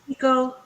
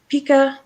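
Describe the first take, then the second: First: The word ends in an 'oh' vowel. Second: The word ends in an 'ah' vowel. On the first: The speaker calls it right. "it is definitely an O on Pico" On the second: The speaker calls it wrong. "why would it be Pika?"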